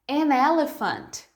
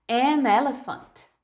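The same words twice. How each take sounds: Both takes have the same delivery.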